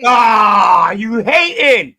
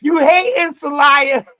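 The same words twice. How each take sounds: First: Loud, slow taunt; teasing shout. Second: Loud, higher taunt at a friend; teasing shout. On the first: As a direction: call him a hater, loud and drawn out. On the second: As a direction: razz him loudly. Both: Real, not acted.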